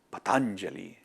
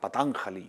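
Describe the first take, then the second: First: The name is pronounced in the standard way. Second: The name is pronounced in a mangled way. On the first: The speaker calls it right. "ni siquiera saben pronunciar bien el nombre" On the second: The speaker calls it wrong. "Yo he escuchado decir hasta"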